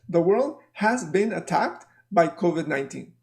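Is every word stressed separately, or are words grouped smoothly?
every word. Every word is stressed separately and evenly. The speaker calls it wrong. "many students will say it like this"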